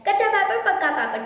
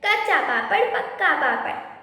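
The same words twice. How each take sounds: First: The phrase is said quickly. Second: The phrase is said at a normal pace.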